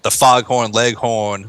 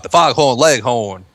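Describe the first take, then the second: First: Said in the usual way. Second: Southern cartoon drawl on "foghorn, leghorn", r's dropped; lightly hammed-up Southern "foghorn, leghorn"; stereotypical Southern accent. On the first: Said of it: "you can do, like". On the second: Shown as a demonstration. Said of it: "where it's, like, the stereotypical".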